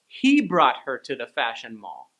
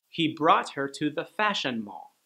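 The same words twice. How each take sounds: First: The stress is on the word he. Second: It is said with no special word stress.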